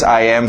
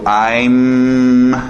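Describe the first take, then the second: First: Both words are said in full. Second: The two words merge into one syllable.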